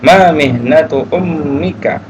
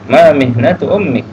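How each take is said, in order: First: The last word ends with a final vowel. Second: The last word ends without its final vowel.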